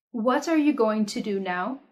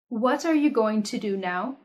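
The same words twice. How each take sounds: The two takes are said the same way.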